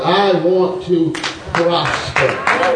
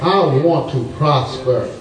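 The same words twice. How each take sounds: First: It is said louder. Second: It is said at normal loudness.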